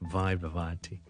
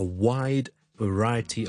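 First: Both words start with a V sound. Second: The first word starts with W, the second with V. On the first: The speaker calls it wrong. "读晒V sound 咧就变咗wide variety" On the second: The speaker calls it right. "我哋第一个系W wide，第二个系V sound"

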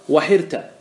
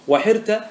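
Both takes have the same delivery.

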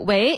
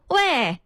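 First: The tone rises on the word. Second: The tone falls on the word. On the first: The speaker is young. "喂是第二声" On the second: The speaker is middle-aged. "读喂这第四声"

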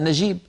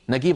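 First: The middle consonant is a j sound. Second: The middle consonant is a hard g. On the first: "قصدهم نجيب" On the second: "يستعملون الصوت نفسه مقابل الجيم"

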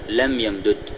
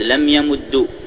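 First: The two d sounds are split, not doubled. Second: The doubled d ends with a u vowel. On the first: "بفك الإدغام" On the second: "بالضم"

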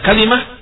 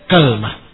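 First: An a follows k and an i follows l. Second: An a follows k and no vowel follows l. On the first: "difathahkan di kafnya dan dikasrahkan lamnya" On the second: "fathul kaf ... bersama sukunul lam"

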